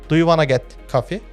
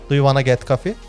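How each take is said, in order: The two takes are said the same way.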